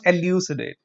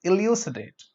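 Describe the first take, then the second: First: "elucidate" with an EH opening, eh-LYOO-si-date; mispronunciation. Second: "Elucidate" with an EE opening, ee-LYOO-si-date; correct pronunciation. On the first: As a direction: say "elucidate" wrongly starting like the letter L. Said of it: "Not elucidate". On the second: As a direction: correct it to "Elucidate", starting on a short ee. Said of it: "It's E". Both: Shown as a demonstration.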